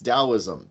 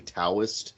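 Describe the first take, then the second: First: The word begins with a D sound. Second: The word begins with a hard T sound. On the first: The speaker calls it right. "It's how you say it correctly" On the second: The speaker calls it wrong. "I keep hearing people say Taoist. Please stop"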